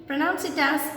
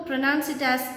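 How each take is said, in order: The two takes are said the same way.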